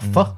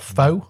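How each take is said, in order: First: The vowel sounds like the one in 'fur'. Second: The vowel sounds like the one in 'go'. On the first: The speaker calls it right. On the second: The speaker calls it wrong.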